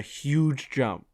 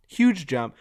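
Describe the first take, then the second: First: Said in the usual way. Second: Huge jump repeated, louder, huge hit hard; stress on huge. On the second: Shown as a demonstration. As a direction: lean on huge.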